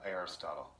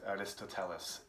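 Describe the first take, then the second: First: The name is said with a short '-totle' ending. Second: The name is said with a longer '-teles' ending. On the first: "The American pronunciation is" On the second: "which Koreans call, probably the pronunciation is more correct"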